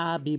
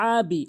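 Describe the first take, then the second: First: "আবি" opened with a plain a, no ayn; hamza mistake. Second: First "আবি" with a long pressed throat ayn; correct ayn. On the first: Retold or imitated. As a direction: say "আবি" with a simple glottal start. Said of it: "হামজার উচ্চারণ করে". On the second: Shown as a demonstration. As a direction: begin "আবি" by squeezing mid-throat. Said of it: "আইনের উচ্চারণ করতে হবে".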